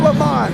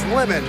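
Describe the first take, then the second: First: The name is said with a French-sounding ending. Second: The name is said as plain English "lemon." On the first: The speaker calls it wrong. "It's not Lamont. He's not French" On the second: The speaker calls it right. "It's Lemon. Get it right"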